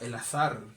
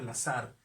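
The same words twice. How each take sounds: First: The z is said like English th. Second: The z is said like an s.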